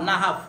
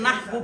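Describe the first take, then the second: First: "নাহাফ" as na-haf, closed by a consonant; correct pronunciation. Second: "নাহবু" ending in an u sound; wrong pronunciation. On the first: Teacher answering how we read it, "নাহাফ" without final u. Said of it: "কি পড়বো?". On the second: Teacher showing what we won't read, "নাহবু" ending in u. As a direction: say "নাহবু" with a final u. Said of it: "আমরা এটাকে নাহবু পড়বো না". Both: Shown as a demonstration.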